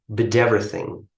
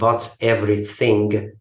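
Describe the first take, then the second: First: The words are linked together smoothly. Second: The words are said separately, not linked. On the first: The speaker calls it right. "combining the words in English" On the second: The speaker calls it wrong. "not but everything"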